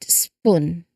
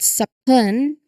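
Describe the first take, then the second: First: The S runs straight into the P. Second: A short vowel separates the S and P. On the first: The speaker calls it right. "a swift connected spoon" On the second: The speaker calls it wrong. "it's not spoon"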